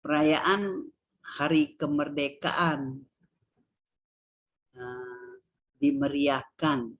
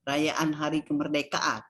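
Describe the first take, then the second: First: Slow, spaced "Perayaan Hari Kemerdekaan", pausing before "dimeriahkan"; deliberate teacher's demo, "dimeriahkan" set apart slowly; sentence intonation. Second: "Perayaan Hari Kemerdekaan" in one level run; monotone teacher's demo of a phrase; no intonation. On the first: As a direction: build the phrase into a sentence, word by word. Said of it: "berintonasi datar dia prase". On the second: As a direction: read it as a bare title, no melody. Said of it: "tidak ada intonasi". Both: Shown as a demonstration.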